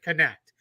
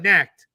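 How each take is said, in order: First: It is said as two syllables, 'connect'. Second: It is said as one syllable, 'necked'. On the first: The speaker calls it right. "he pronounces it connect" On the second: The speaker calls it wrong. "I know it looks like it's necked"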